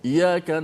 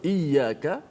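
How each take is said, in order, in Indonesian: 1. Bunyi y pendek dan tunggal. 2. Bunyi y ditahan dan digandakan. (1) "ramai yang baca iyyaka na'budu wa iyya, dia tak sabdu betul-betul pada iya tadi" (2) "kalau iyyaka, kepadamu lah"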